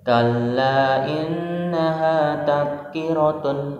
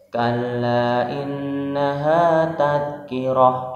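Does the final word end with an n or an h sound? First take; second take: n; h sound. First: The last word ends with an n sound. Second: The last word ends with a still h sound.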